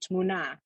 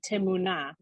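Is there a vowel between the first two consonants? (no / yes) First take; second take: no; yes. First: The first two consonants are joined without vowel. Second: A short vowel separates the first two consonants. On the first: The speaker calls it right. "say tmuna" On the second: The speaker calls it wrong. "You don't say timuna"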